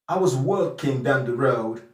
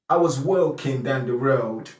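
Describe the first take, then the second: Both takes have the same delivery.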